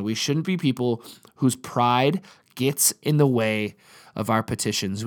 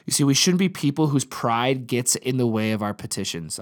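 First: Slower, every word weighed; emphatic slow restatement; slow deliberate repeat. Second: Said in the usual way. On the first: Shown as a demonstration. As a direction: repeat it slowly so it sinks in. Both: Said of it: "I wanna say that again".

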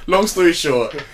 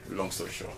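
First: Laughing summary. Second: Quiet deadpan. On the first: Sums up story, laughing. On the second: Repeats summary, deadpan. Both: Real, not acted.

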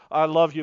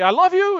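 First: Said in the usual way. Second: "I love you" pitched much higher and louder, love leaping up; "I love you" as a nervous, daring confession; nervous declaration. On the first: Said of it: "you hope they say". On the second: Retold or imitated. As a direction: blurt out "I love you" high and loud. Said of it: "get the nerve up to say".

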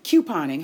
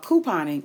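First: "couponing" said KYOO-pon-ing; "couponing" starting like the letter Q; KYOO pronunciation. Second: "couponing" said KOO-pon-ing; "couponing" starting like "coo"; KOO pronunciation. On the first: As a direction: say "couponing" with a y-glide after the k. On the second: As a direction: say "couponing" with a plain oo in the first syllable. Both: Shown as a demonstration. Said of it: "however you'd like to pronounce that".

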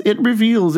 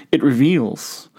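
First: It reveals. with reveals pitched high and falling; stress on reveals. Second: Said in the usual way. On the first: Shown as a demonstration. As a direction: lift reveals up high, then let it fall.

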